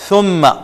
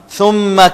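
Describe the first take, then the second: The two takes are said the same way.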